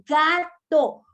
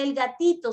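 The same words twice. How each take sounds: First: Gato said slow and louder, each syllable clear; slow clear correction. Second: Said in the usual way. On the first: Shown as a demonstration. Mom modelling the correct word for baby, slow and firm. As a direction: stretch gato out firmly. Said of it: "se dice gato". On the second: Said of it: "No se dice el gatito".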